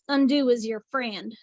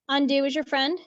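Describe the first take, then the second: First: It is said in a Southern accent. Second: It is said in the speaker's usual accent.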